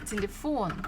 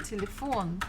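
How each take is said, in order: First: The stress is on the last syllable. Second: The same.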